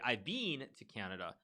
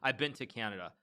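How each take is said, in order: First: The word been sounds like bean. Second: The word been has a short vowel. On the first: "if you're speaking Canadian English" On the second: "in American English, I say"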